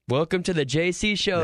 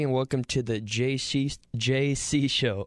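First: It is said with more energy. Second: It is said with little energy.

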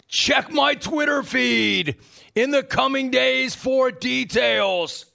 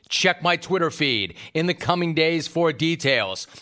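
First: It is read in the emailer's put-on voice. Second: It is read in his own natural voice.

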